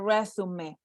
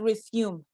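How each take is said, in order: First: It is pronounced the French way, with accented vowels. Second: It is pronounced like the English verb resume. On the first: The speaker calls it right. "it's a resume. Take a look at the accentuation mark" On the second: The speaker calls it wrong. "It's not resume"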